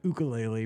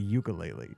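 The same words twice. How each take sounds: First: The word is said with a Hawaiian-style pronunciation. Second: The word is said with an English-style pronunciation. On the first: The speaker has adopted the local way of saying it. "So he calls it the ukulele" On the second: This is the older, unlearned way of saying it. "Before he went, it was the ukulele"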